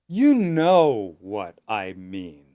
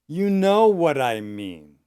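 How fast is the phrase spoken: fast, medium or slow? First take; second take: slow; medium. First: The phrase is spoken slowly and carefully. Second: The phrase is spoken at a medium pace.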